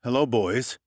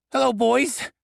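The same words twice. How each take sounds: First: Smooth, cool menace in the greeting; detective greeting the dwarf muggers, debonair threat; threateningly debonair. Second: Much higher, squeaky goblin trying to sound tough; a goblin badly aping his boss's cool line; failed debonair imitation. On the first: Acted. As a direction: greet the muggers like a suave gangster. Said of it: "my threateningly debonair tone". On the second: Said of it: "trying and failing miserably to imitate my threateningly debonair tone".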